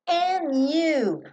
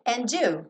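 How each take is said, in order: First: The D at the end of 'and' is dropped. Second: The D at the end of 'and' is pronounced. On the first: "esse D sumiu" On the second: "Poderia não sumir"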